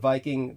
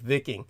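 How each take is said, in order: First: The word has its everyday English pronunciation. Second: The word has a Scandinavian-style pronunciation.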